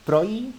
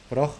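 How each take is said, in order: First: The word ends in a y sound. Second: The word ends in a harsh h sound. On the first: "porque la J en el norte de Europa se pronuncia como una I" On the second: "como reloj o boj"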